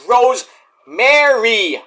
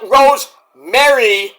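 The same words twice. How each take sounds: First: The name ends with a sound like Mary. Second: The name ends with a sound like merry. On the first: The speaker calls it right. "It's Rosemary. M A R Y. Mary. Like Mary had a little lamb" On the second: The speaker calls it wrong. "not Rosemary, like Merry Christmas"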